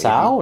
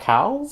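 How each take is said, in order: First: The name begins with an S sound. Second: The name begins with a K sound. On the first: The speaker calls it right. "It's actually pronounced" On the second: The speaker calls it wrong. "not Cow"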